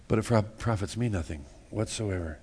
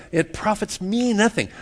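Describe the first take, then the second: First: Dropped low and soft; quiet repeat. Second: Pitched high, pressing the point; emphatic. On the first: Preacher repeating the point to congregation, low and soft. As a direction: let it sink in, hushed. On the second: Preacher to congregation, insisting, pitched high. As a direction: lift it high to drive it home. First take, raised high. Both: Shown as a demonstration.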